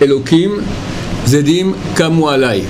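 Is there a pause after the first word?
yes. A pause comes after the first word. God, evil people rise against me. The speaker calls it right.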